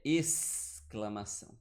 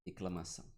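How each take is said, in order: First: "exclamação" as "essss-clamação", S drawn out; sounded S. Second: "exclamação" as "eclamação", lower and softer; dropped S. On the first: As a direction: stretch the S in "exclamação", slowly. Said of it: "Ele tem som". ("exclamação" com o S bem marcado e prolongado) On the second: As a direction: softly say "exclamação" without its S. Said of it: "esse X C não é". ("exclamação" baixinho, sem o S: "eclamação") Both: Shown as a demonstration.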